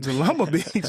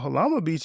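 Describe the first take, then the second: First: The name begins with a J sound. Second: The name begins with an H sound. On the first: The speaker calls it wrong. "that's stupid" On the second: The speaker calls it right. "J's are H's"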